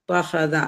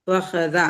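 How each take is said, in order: No difference in how they are said.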